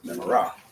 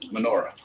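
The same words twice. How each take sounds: First: Sephardic style, stress on the last syllable. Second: Ashkenazic style, stress on the next-to-last syllable.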